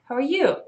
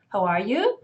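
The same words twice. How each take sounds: First: It is said fast, words run together. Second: It is said slowly, each word clear.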